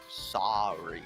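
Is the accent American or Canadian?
American. It is said in an American accent.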